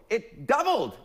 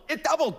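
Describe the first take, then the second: First: Said in the usual way. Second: Mock amazement. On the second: Real, not acted.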